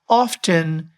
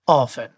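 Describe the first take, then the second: First: A t sound is pronounced in the middle. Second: No t sound is pronounced in the middle. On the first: The speaker calls it wrong. "It is not often" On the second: The speaker calls it right. "There are no T's in any spelling of often"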